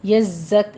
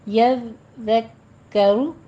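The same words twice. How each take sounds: First: यज़्ज़क cut short with no final vowel; wrong version. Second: यज़्ज़करु with the ending रु fully said, slow; right version. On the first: Teacher shows the clipped wrong form. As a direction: stop dead on the क of यज़्ज़क. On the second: Teacher gives the correct form, slow. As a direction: finish यज़्ज़करु on a clear रु. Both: Shown as a demonstration. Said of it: "यज़्ज़क नहीं कहना".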